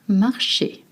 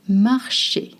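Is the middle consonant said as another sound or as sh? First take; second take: sh; sh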